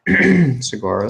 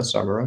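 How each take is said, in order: First: Sagara said slowly as suh-GAR-uh; stress on second syllable. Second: Sagara said as SAH-guh-ruh; stress on first syllable. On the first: Game master tries the name Sagara, stressed on GAR. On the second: Game master corrects the name Sagara, stressed on SAG. GM settles on the name's pronunciation. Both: Shown as a demonstration.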